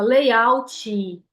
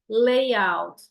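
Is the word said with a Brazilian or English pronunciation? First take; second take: Brazilian; English. First: It is said with a Brazilian pronunciation. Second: It is said with an English pronunciation.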